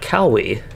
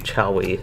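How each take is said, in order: First: The name begins with a hard k sound. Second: The name begins with a ch sound. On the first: "a lot of C H's are pronounced like it would be like Cowie" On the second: "this one sounds like it might be Chowie instead"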